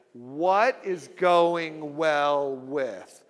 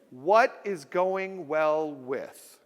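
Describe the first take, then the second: First: Chanted, even slower, each word separated; chanted, lead the crowd through it word by word; slow group chant. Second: Very slow, evenly spaced phrase; slow drill. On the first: Chanted, speaker leading the audience in unison, very slow. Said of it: "Say it all together". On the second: Speaker teaching the audience the phrase, slow. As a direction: say it slowly for the crowd to echo. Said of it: "Everybody say it with me". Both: Shown as a demonstration.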